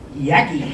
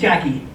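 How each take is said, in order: First: The name begins with a Y sound. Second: The name begins with a J sound. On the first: "They don't pronounce the letter J. They use the letter Y instead" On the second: "to most adults, I was known as Jackie"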